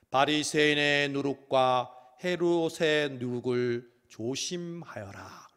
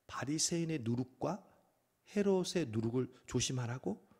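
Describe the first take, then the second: First: Slow, solemn warning. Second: Softer puzzled repeating with a questioning rise; puzzled echo. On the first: Acted. Jesus suddenly warning disciples, slow solemn voice. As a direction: intone it gravely like Jesus. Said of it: "갑자기 뜬금없이". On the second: Retold or imitated. Disciples puzzling over Jesus' words, baffled echo. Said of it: "서로 수군거립니다".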